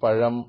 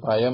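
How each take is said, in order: First: The middle consonant is a retroflex zh sound. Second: The middle consonant is a plain y sound. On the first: The speaker calls it right. "പഴം അല്ലെങ്കിൽ എന്നത്" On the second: The speaker calls it wrong. "പയം എന്ന് പറയലും"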